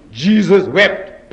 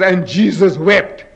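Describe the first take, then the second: First: "Jesus wept" drawn out very slowly, word by word; very slow emphasis. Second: "And Jesus wept" said slowly, each word weighted; slow emphasis. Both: Shown as a demonstration. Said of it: "Two words".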